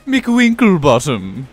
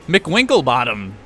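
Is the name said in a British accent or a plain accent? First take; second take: British; plain. First: The name is said in a British accent. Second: The name is said in the speaker's usual accent.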